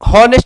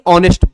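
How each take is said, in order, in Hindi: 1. इस शब्द की शुरुआत में h की ध्वनि है। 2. इस शब्द की शुरुआत स्वर से होती है, h नहीं है।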